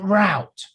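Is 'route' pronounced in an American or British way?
American. The word is said with an American pronunciation. The speaker calls it wrong. "it isn't route"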